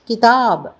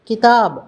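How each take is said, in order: The two takes are said the same way.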